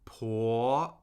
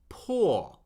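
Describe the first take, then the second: First: The pitch rises steadily from mid to high. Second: The pitch falls steadily from high to low. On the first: "Second tone is steadily rising" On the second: "the fourth tone falls"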